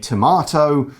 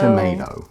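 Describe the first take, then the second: First: It is said with a British pronunciation. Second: It is said with an American pronunciation.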